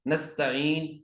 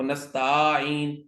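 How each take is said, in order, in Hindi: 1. t के बाद का स्वर छोटा है। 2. t के बाद का स्वर खींचकर लंबा किया जाता है।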